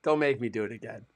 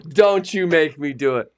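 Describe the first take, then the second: First: Said in the usual way. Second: Louder, playful stern warning; mock stern warning. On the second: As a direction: warn them off, half joking. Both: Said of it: "done it in Australian accent".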